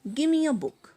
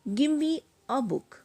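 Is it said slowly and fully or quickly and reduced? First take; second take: quickly, reduced; slowly, fully. First: It is said quickly with the words run together. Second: It is said slowly with every word full.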